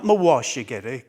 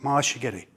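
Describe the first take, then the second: First: The second syllable is fully pronounced. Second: The second syllable is reduced and slurred. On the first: The speaker calls it wrong. "not mawashigeri. Got told off several times for that" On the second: The speaker calls it right. "That's the way you're supposed to pronounce it"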